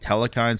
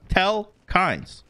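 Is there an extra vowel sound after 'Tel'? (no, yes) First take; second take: yes; no. First: An extra vowel sound follows the first syllable. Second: No extra vowel sound follows the first syllable. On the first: The speaker calls it wrong. "in case you're wondering why I'm saying Telekines" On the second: The speaker calls it right. "it doesn't have another E. It's just Telkines"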